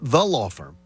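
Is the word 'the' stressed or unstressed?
unstressed. The word 'the' is unstressed and reduced. The speaker calls it wrong. "It's not the law firm"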